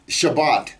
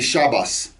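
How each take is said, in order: First: The word ends with a T sound. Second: The word ends with an S sound. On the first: "pronounce the T sound at the end of a word" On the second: "They'll say Shabbos"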